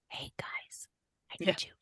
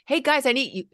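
First: It is said in a soft whisper. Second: It is said in a loud, calling voice. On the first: The request is brought down quietly to the children. The speaker calls it right. "So bringing it down by whispering to them" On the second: Commands are called out to the children. The speaker calls it wrong. "instead of like"

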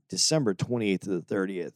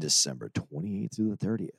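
First: It is said in a natural speaking voice. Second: It is said in a put-on radio announcer voice.

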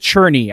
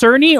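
First: The name begins with a 'ch' sound. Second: The name begins with an 's' sound. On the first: "I feel like you pronounce it like a CH" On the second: "is it Cerny or"

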